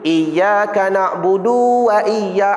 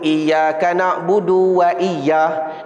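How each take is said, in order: First: The 'du' is drawn out long. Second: The 'du' is clipped with a brief stop. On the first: The speaker calls it wrong. "Yang tak betul begini" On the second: The speaker calls it right. "dia baca du macam saktah"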